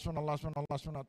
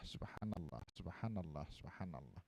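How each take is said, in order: First: The repetitions are said quickly and hurriedly. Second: The repetitions are said slowly and deliberately. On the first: The words are said only to reach a large number. The speaker calls it wrong. "bukan sekedar sing penting akeh" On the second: The words are said thoughtfully, with their meaning in mind. The speaker calls it right. "las-lasan tartil dimaknai dalam hati"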